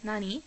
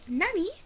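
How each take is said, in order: First: It is said in a plain, ordinary voice. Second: It is said in a cute, girlish voice. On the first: It does not sound girly enough. The speaker calls it wrong. "I use my normal voice" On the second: It sounds girly as expected. The speaker calls it right. "I'm supposed to say"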